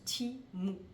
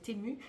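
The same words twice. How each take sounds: First: The name is said differently from French reading. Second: The name is read the usual French way. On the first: The speaker calls it right. "mais ça se prononce Temu" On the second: The speaker calls it wrong. "nous on aurait tendance à le prononcer Temu"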